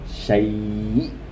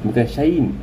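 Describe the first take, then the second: First: The word ends abruptly in a glottal stop. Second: The word ends with an added n sound. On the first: The speaker calls it right. "matikan huruf hamzah" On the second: The speaker calls it wrong.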